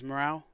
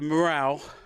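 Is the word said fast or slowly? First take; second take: fast; slowly. First: The word is said quickly. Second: The word is said slowly.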